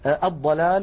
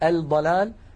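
First: The l merges into a doubled d sound. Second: The l is clearly pronounced before the d. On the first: The speaker calls it right. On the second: The speaker calls it wrong.

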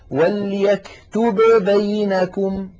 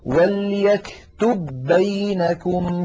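First: The two b sounds are pronounced separately. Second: The two b sounds merge into one. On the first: The speaker calls it wrong. "فالعرب أبدا ما تقول" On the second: The speaker calls it right. "بل يقولون"

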